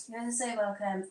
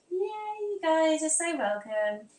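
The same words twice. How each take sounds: First: Said in the usual way. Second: High, drawn-out cheer; gushing welcome. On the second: Pretend. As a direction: welcome them in a high, slow, playful squeal. Excited greeting to chat friend.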